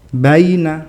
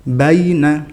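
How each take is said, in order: Both takes have the same delivery.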